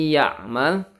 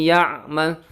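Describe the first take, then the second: No difference in how they are said.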